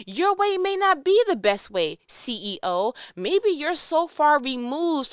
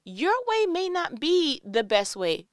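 First: Louder and higher, pressing hard on be; bold call-out. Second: Slow and deliberate, slightly raised pitch; gentle firm correction. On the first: To the CEO, daring to challenge him: loud, high call-out. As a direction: call the boss out with force. Same line aimed at the CEO. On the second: To Grandma, telling her to change: slow, deliberate correction. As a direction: lay it down patiently, word by word. Same line aimed at Grandma. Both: Shown as a demonstration.

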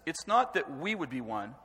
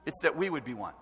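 First: It's NOT that we would be one, leaning on "not"; stress on not. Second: "that" stressed and falling, the rest light. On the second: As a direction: push the word "that", then let it fall. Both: Shown as a demonstration. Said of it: "look at the emphasis".

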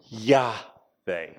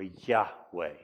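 First: "Yahweh" said YAH-vay, with a v; v sound in Yahweh. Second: "Yahweh" said slowly as YAH-way, with a w; w sound in Yahweh. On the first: Lecturer giving scholars' reading, "Yahweh" as YAH-vay with a v. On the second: Lecturer offering the alternative reading, "Yahweh" as slow YAH-way with a w. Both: Shown as a demonstration. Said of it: "may have been pronounced".

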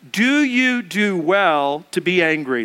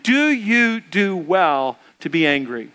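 First: Slow, deliberate scripture reading; slow unison Bible reading; slow reading aloud. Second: Slow, deliberate scripture reading again with the room; slow unison Bible reading; slow reading aloud. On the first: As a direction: read each word slowly with the congregation. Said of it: "let's read this together". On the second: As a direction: lead the room through it slowly. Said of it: "Let's read that together again". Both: Shown as a demonstration.

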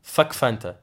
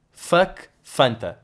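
First: Said in the usual way. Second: Fuck Fanta drawn out slowly, each word weighted; slow emphatic curse. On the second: Shown as a demonstration. Comedian to audience, slow deliberate "Fuck Fanta".

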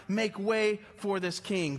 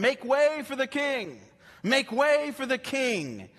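First: Slow, steady proclamation; a lightly voiced herald announcing the coming king; herald's call. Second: Higher, louder, slow proclamation; a herald crying out before the king enters the city; herald announcing. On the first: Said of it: "They would declare his majesty". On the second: Acted. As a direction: call out like a royal herald clearing the road. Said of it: "forerunners that would go before them".

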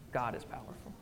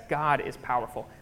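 First: Soft reverent whisper, barely voiced. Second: Said in the usual way. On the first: Real, not acted. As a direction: breathe it out in awe. Whispered repeat of key line.

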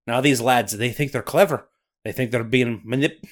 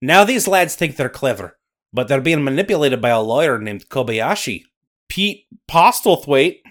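First: Put-on Scottish accent slipping away. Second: Louder Scottish storyteller voice; Scottish accent. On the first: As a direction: Scots brogue that falters. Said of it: "Lose an accent on those three-syllable guys". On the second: Acted. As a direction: narrate like a Highland storyteller. Nessie narrating in Scottish accent.

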